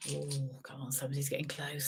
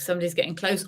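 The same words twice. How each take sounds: First: Unvoiced teasing whisper. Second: Said in the usual way. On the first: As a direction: whisper it like a secret. Teasing hush before number.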